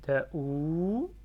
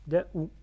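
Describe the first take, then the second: First: DAOU with the final ou held long, louder; prolonged ou. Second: DAOU with a brief final ou; short ou. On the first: Teacher shows students the waw after dhamma, long ou. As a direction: stretch out the ou of DAOU. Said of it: "je prononce le ou parce qu'il y a waouh". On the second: Teacher first sounds out a syllable for students, short ou. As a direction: say DAOU briefly, not yet held out. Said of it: "je prononce le ou". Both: Shown as a demonstration.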